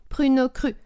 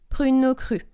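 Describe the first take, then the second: No difference in how they are said.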